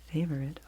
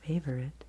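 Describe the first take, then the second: No difference in how they are said.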